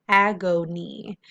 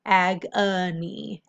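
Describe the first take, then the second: First: "agony" said slowly with a full O, ag-o-ny; slowly blended. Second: "agony" slowly with a schwa, AG-uh-nee; schwa pronunciation. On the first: Teacher blending "agony" for students, slow and clear. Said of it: "whole word". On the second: Teacher showing students the schwa in "agony", slow. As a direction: reduce the O in "agony" to uh, drawn out. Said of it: "we hear the schwa sound". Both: Shown as a demonstration.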